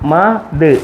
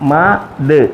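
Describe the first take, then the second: First: The two sounds are said separately with a break. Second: The same.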